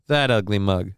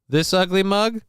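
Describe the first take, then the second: First: That ugly mug dropped low and flat; low flat answer. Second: This ugly mug asked with a rising question; questioning rise. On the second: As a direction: ask This ugly mug going up at the end. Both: Shown as a demonstration. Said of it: "would you rather stare at this ugly mug or that ugly mug".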